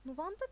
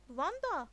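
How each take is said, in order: First: Patiently giving in, pitch rising at the end; mildly resigned, questioning lift. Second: Nuvanda called out louder; Nuvanda, emphatic and raised; insistent correction. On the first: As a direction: repeat the name with forbearance. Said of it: "dedi Neil sabırla". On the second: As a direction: correct him firmly with a loud Nuvanda. Correcting friend who used old name. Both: A narrator's reading.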